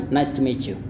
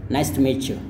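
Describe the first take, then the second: Both takes have the same delivery.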